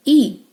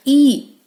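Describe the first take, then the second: First: ई said as short 'ih', as in pin; short phonics ई for letter I; short I sound. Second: ई drawn as 'ee', as in seat; long ई, the vowel of 'beat'; long E sound. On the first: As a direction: cut ई to the brief vowel of 'pin'. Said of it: "short sound है". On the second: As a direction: say ई like the name of letter E. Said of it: "ई long sound". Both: Shown as a demonstration.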